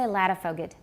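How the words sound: It is pronounced the way English speakers say it. This is the usual local pronunciation of the name. "We say Ladderfoged"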